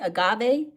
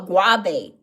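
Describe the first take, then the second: First: The word begins with an 'a' sound. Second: The word begins with a 'g' sound. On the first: The speaker calls it right. "I put it in my tea" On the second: The speaker calls it wrong. "He called it a guave"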